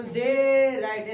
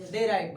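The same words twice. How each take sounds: First: Mock broken chant, they and write split by a pause; they, pause, write, as the class chants it; imitating the students. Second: Quick, smooth and joined; they write said fast as one unit; said quickly. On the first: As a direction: copy the class dragging they ... write apart. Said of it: "ऐसे बोल रहा है". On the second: Shown as a demonstration. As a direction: run the two words together in one breath. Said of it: "बस जल्दी बोलना है".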